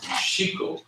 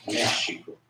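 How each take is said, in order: First: Mexico as meh-SHEE-ko; alternative early pronunciation. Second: Mexico as MEH-shee-ko, said softly; early pronunciation. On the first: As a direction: stress the middle of "Mexico", X as sh. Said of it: "both could be used". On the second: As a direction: stress the first syllable of "Mexico", X as sh. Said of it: "the early pronunciation for Mexico would be". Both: Shown as a demonstration.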